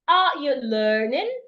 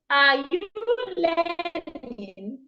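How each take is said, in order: First: The pitch rises at the end. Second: The pitch falls at the end. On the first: The speaker calls it right. "the tone of my voice should go up. Look at my tone" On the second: The speaker calls it wrong.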